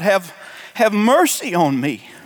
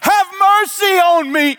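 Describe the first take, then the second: First: It is read calmly, without strong emotion. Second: It is cried out in desperate anguish.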